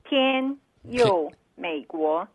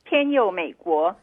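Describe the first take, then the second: First: It is said slowly. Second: It is said at normal speed.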